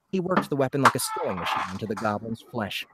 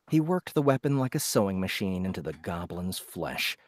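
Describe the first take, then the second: First: The line is read at a faster pace. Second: The line is read at a slower pace.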